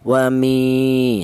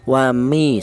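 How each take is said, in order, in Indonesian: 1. Huruf vokal setelah m panjang. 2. Huruf vokal setelah m pendek. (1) "dipanjangkan, yaitu satu alif atau dua harokat" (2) "dibaca pendek, satu harokat"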